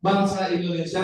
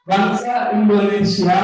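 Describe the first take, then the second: First: "bangsa Indonesia" at normal volume with a slight questioning bend; question intonation. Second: Loud "Bangsa Indonesia" curving at the end; question intonation. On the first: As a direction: repeat "bangsa Indonesia" more casually as a question. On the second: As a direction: ask "Bangsa Indonesia" loudly, bending the last word. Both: Shown as a demonstration. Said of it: "intinya belakangnya banyak ya, agak sedikit melengkung".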